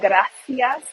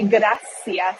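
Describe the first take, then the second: First: The middle consonant is a th sound. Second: The middle consonant is an s sound. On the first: This is how people say it in mainland Spain. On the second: This is how people say it locally.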